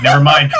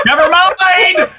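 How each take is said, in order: First: Said in the usual way. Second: High, slow, laughing never mind; laughing shout. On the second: Real, not acted. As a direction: burst out laughing as you say it. Repeats never mind, then laughs.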